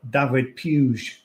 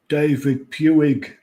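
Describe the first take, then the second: First: The name is pronounced the Spanish way. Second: The name is pronounced the English way. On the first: "if you want to be a bit Spanish" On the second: "If you want to be really English about it"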